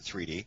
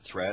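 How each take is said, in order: First: It is said as two separate syllables. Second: It is said as one syllable. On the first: It hints at three dimensions running through everything. "I'll pronounce it three D" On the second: This is how most people would say it. "You might pronounce it thread"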